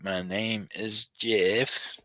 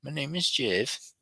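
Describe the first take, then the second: First: "My name is Jeff" drawn out slowly, rising at "Jeff"; slow mock quote. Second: "My name is Jeff" in a higher, softer voice, falling on "is"; higher mock quote. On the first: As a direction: stretch the line out like a goofy quote. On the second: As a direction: go up and soften for the silly take.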